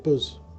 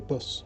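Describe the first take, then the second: First: The word ends with a buzzing z sound. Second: The word ends with a hissing s sound. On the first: "I say buzz. Like the sound of sound a uh, a bee makes" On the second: "I don't say bus"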